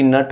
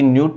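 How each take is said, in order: First: The vowel sounds like 'uh'. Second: The vowel sounds like 'yoo'. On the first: The speaker calls it right. "N U T नट होतं" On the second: The speaker calls it wrong. "न्यूट नाही"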